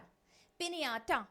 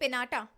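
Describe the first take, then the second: First: The middle consonant is a ny sound. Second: The middle consonant is a plain n sound. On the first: "एन के ऊपर हमने थोड़ा stress देके उसको properly बोला" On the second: "simple बोलूंगी कि पिनाटा"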